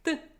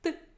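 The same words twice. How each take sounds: No difference in how they are said.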